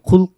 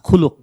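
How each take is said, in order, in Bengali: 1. শব্দটিতে ব্যঞ্জনের মাঝে একটিমাত্র স্বরধ্বনি আছে। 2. শব্দটিতে l-এর পরে দ্বিতীয় একটি স্বরধ্বনি আছে। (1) "খুলক না" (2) "লামের উপরে পেশ দিলে সেটার অর্থ হলো চরিত্র"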